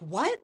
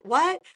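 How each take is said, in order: First: Said in the usual way. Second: A high, louder squeak of disbelief; re-living the moment she couldn't believe the praise; stunned what. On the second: Retold or imitated. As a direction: jump up in pitch, can't believe it.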